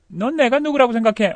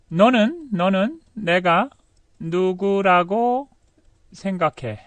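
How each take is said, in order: First: Higher-pitched challenge, run together; lively everyday question; natural connected question. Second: Feed the sentence to learners bit by bit; slow dictated sentence. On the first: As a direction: ask it in one go, lifting 내가. Same sentence as natural question. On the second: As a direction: piece by piece with pauses. Dictating sentence to translate slowly. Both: Shown as a demonstration.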